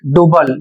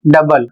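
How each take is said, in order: First: डुबल said with a u sound, "doo-bal"; common mispronunciation. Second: डबल said with a short "da", "dabal"; correct pronunciation. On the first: Teacher imitating the mistake many learners make, डुबल as doo-bal. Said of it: "बहुत से लोग इसे". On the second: Teacher giving students the right way, डबल as da-bal. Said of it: "जबकि इसे पढ़ना है". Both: Shown as a demonstration.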